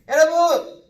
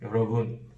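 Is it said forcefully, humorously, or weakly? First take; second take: humorous; weak. First: It is said in a playful, humorous way. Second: It is said weakly, without energy.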